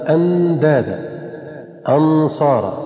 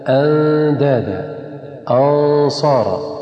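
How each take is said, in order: First: The n is pronounced clearly, tongue on the teeth. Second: The n is hidden, tongue kept off the teeth. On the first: The speaker calls it wrong. "فإن النون هنا لم تخفى ولكنها أظهرت" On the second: The speaker calls it right. "أن نبعد اللسان عن الأسنان"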